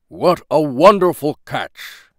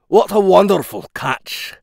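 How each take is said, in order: First: It is read without any Scottish accent. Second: It is read in a Scottish accent.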